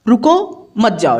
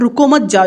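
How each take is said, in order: First: The pause comes right after रुको. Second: The pause comes right after मत.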